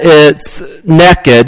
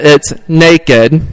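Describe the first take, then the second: First: It is said with a southern Indiana accent. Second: It is said with a northern Indiana accent.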